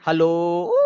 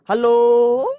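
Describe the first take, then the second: First: Slow, heavy, drawn-out hello; low-pitched hello. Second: A thin, high, loud hello; high-pitched hello. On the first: Teacher showing students a low, heavy hello. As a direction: drop into a thick, slow voice for hello. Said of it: "मेरी pitch कम हो गई". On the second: Teacher showing students a high-pitched hello. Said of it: "मेरी उसमें pitch ज्यादा थी". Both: Shown as a demonstration.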